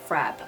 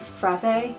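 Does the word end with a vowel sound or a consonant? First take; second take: consonant; vowel. First: The word ends on the consonant sound. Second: The word ends with an added vowel sound. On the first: The speaker calls it right. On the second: The speaker calls it wrong.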